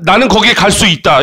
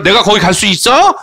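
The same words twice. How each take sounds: First: Said in the usual way. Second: "있어" lifted at the end as a question; quick question, ending upward on "있어"; rising question tune. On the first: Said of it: "이렇게 얘기하지만". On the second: Shown as a demonstration. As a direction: raise the pitch on the final "있어". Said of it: "끝을 올려 읽기만 하면 되는데".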